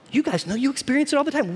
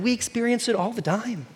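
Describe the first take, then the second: First: Said in the usual way. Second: We pushed forward as the correction; stress on We. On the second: Real, not acted. Preacher correcting himself to the congregation, stress on We. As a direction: lean on We, not You.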